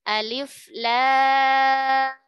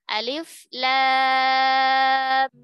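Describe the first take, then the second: No difference in how they are said.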